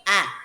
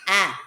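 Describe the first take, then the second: First: The letter is said as its sound. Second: The same.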